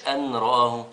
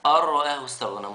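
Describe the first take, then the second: First: أن رآه with the nun said clearly, an raʾāh; wrong reading shown. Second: أن رآه with the nun dropped into the ra, ar-raʾāh; correct merged reading. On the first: Teacher to children, showing the nun wrongly sounded. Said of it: "مش أن رآه". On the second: Teacher to children, giving the correct merged reading. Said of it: "لا". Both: Shown as a demonstration.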